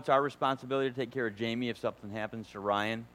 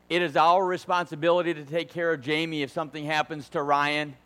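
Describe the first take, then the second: First: It is said plainly without extra emphasis. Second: It is said with heavy, forceful emphasis.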